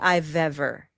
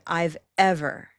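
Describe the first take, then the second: First: The two words run together without a pause. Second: A pause separates the two words. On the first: "I didn't say I've ever" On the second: "I separated them"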